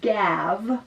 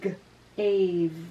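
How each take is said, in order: First: The vowel is a short a sound. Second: The vowel is a long a sound. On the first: The speaker calls it wrong. "instead of saying gav" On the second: The speaker calls it right. "It makes the other vowel say its name"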